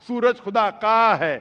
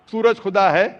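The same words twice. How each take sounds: First: "का" held long, then falling; stress on possessive. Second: Said in the usual way. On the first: Shown as a demonstration. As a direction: lean on "का" and stretch it.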